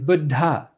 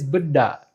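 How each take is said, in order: First: The second syllable's d has a breath puff. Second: The second syllable's d has no breath puff. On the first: The speaker calls it right. "The correct way is Buddha" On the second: The speaker calls it wrong. "Another wrong way is Buddha. Here there's no aspirated consonant in the second uh, syllable"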